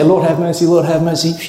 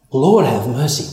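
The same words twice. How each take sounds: First: Rattled off by rote, in one ear and out the other; rote mumbling. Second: Mean every word; sincere plea. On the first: Retold or imitated. Congregation repeating the prayer mindlessly, rote. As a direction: say it like a habit, no meaning. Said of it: "All the time we say". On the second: Shown as a demonstration. Believer truly asking the Lord, sincere and low. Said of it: "Whoa, I don't deserve it".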